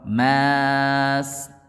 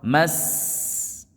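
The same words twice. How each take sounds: First: The vowel after the m is drawn out long. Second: The vowel after the m is kept short. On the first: The speaker calls it wrong. "Voilà pourquoi on ne dit pas mas" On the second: The speaker calls it right. "Donc ça donne quoi?"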